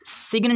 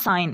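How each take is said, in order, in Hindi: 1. g की ध्वनि उच्चारित होती है। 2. g की ध्वनि मौन है। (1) "सिग्न नहीं पढ़ना" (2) "इसको पढ़ना है साइन"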